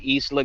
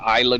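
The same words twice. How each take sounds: First: Isla is said with its native pronunciation. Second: Isla is said with an anglicized pronunciation. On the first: "that's the correct uh, uh, ethnic way to say it" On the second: "Some people call it"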